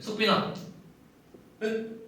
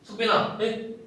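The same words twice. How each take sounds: First: The reply comes slowly after the name. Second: The reply comes quickly after the name. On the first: "느리게 가져갔죠. 그러면은 ... 이렇게 가져가야 된단 말이에요" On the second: "이렇게 되잖아요, 반응이"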